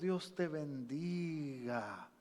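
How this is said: It is said warmly and tenderly. The blessing is truly meant from the heart. "Una abuelita con un corazón amoroso mira a su nieto y dice"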